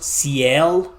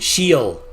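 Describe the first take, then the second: First: It does not sound like 'shield' minus d. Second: It sounds like 'shield' without the final d. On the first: The speaker calls it wrong. "I thought it was Ciel, but no" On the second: The speaker calls it right. "like shield, but without the D at the end"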